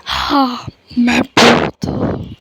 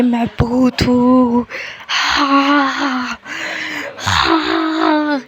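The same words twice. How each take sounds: First: Slow heavy disguised deep voice. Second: Slow, loud disguised deep voice. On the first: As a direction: boom it out slow and heavy like a ghost. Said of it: "एकदम भारी आवाज़ में बोलता है". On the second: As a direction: drag out a loud heavy ghost boast. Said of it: "ज़ोर से आवाज़ करके बोलता है". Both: Pretend.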